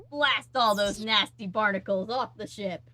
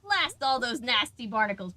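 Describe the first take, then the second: First: Slow, louder little pirate voice. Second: Lightly voiced pirate, slightly higher; a hint of a little pirate. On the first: Retold or imitated. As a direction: ham it up like a small pirate. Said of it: "little pirate voice is like". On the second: Shown as a demonstration. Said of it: "the little voice is like".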